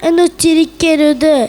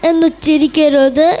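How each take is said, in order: No difference in how they are said.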